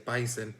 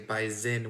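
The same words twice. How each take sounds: First: The middle consonant is an S, Arizona-style. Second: The middle consonant is a Z, North Dakota-style.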